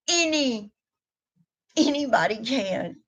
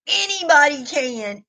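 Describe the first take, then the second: First: Softer echo. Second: Emphatic claim. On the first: To her viewers, repeating the point, a softer echo. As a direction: repeat "anybody can" much softer, drawn inward. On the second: To her viewers, rallying them, a raised emphatic "anybody can". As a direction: lift it high with conviction. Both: Real, not acted.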